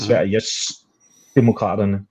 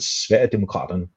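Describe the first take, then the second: First: An s sound follows 'Sverige' before 'demokraterne'. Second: No s sound follows 'Sverige' before 'demokraterne'. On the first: The speaker calls it wrong. "ikke Sveriges demokraterne, som det oftest bliver udtalt" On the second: The speaker calls it right. "men Sverigedemokraterne"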